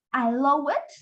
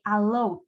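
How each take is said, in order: First: "allow it" with an extra -ed syllable, rising; wrong added syllable. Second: "allowed" closing straight on a D; low, firm "allowed", no extra syllable; D-only ending. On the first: Teacher shows what we cannot say, tacking a syllable on allowed. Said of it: "no podemos decir". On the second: Teacher shows it sounds only as D, clean short ending. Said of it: "que es la D". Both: Shown as a demonstration.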